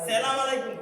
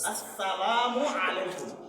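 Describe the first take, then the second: First: The greeting starts with a shortened 'salam'. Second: The greeting starts with the full 'assalamu'. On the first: The speaker calls it wrong. "সালাম আলাইকুম কয়, ... কিন্তু একদম অশুদ্ধ" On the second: The speaker calls it right. "শুদ্ধভাবে উচ্চারণ করতে হবে"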